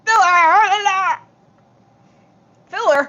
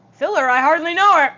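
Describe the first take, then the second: First: Drawn-out goofy voice, pitched up; slow silly voice. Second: Loud, high joke delivery; shouted punchline. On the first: Pretend. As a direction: stretch the joke out in a silly voice. Repeats joke in silly voice. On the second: Acted. Streamer yells a silly pun to her viewers, shouted punchline. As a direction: belt out the punchline.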